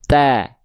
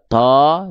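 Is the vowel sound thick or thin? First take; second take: thin; thick. First: The vowel is thin and sounds like a. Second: The vowel is thick and sounds like o. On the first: The speaker calls it right. "tapi ta" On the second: The speaker calls it wrong. "Enggak dibaca to"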